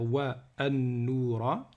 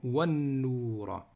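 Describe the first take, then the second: First: The initial glottal vowel of 'an' is pronounced separately. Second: 'Wa' runs straight into 'noura' without a break. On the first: The speaker calls it wrong. "je ne vais pas dire wa an-noura" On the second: The speaker calls it right. "je vais dire directement wa an-noura"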